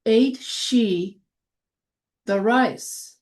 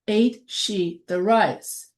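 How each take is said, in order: First: Said in the usual way. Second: Slow. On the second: Shown as a demonstration. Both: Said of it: "So that becomes".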